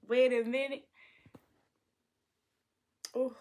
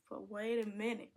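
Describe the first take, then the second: First: Excited. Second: Said in the usual way. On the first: Acted.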